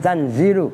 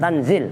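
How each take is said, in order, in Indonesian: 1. Kata ini berakhir dengan vokal. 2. Kata ini berakhir dengan konsonan. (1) "tapi tanzilu" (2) "bukan tanzil"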